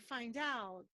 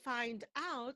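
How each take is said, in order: First: The final d links into the next vowel. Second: The two words are pronounced separately. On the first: The speaker calls it right. "we say" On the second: The speaker calls it wrong. "We don't say"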